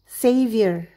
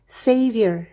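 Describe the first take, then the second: The two takes are said the same way.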